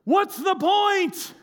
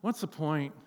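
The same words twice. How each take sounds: First: High, drawn-out yell across water; imitated yell. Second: Low, soft, deflated murmur; deflated question. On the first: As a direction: holler it slowly to a distant boat, mimicking her. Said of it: "she yells to the boat". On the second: Acted. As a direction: ask it quietly, as if worn out. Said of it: "find yourself at the end of it just going".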